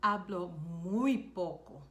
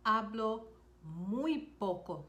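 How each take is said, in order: First: Said in the usual way. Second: "Hablo" then a pause, then "muy poco" slowly; slow, split teaching repeat. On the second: Shown as a demonstration. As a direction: break it after "Hablo" and stretch "muy poco". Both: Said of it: "You could also say".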